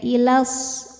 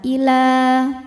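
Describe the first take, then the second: First: The final vowel is short, joined onward. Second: The final vowel is held long. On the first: The reader joins it to the next word. "kalau wasal jadi pendek" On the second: The reader stops after this word. "Jika berhenti panjang dua harokat"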